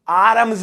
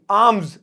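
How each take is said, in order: First: आर्म्स with the R sounded, "aa-rumz"; R pronounced. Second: आर्म्स as "aamz", R left silent. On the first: Teacher showing students what to avoid, आर्म्स with audible R. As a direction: voice the R in आर्म्स as a wrong example. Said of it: "आर्म्स नहीं". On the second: Teacher modelling it for students, आर्म्स said "aamz" with silent R. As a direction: drop the R in आर्म्स, long open "aa". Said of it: "इसमें आर ना silent". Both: Shown as a demonstration.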